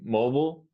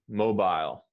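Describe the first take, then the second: First: The last syllable has no long I sound. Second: The last syllable has a long I sound. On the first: This form is more common in the United States. "mobile is more common in the United States" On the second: This form is more common in Britain. "the I is like a, a long I sound"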